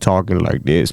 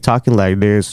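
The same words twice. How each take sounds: First: The voice is deep and throaty. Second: The voice is at a normal pitch.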